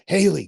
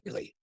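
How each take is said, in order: First: The name is called a little louder. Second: The name is called softly and gently.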